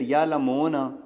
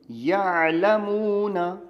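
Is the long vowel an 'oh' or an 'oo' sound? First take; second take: oh; oo. First: The long vowel is an 'oh' sound. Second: The long vowel is a pure 'oo' sound. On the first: The speaker calls it wrong. "यूं पढ़ूंगा तो मजहूल हो जाएगा" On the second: The speaker calls it right. "ये यूं तो सही है, ये मारूफ है"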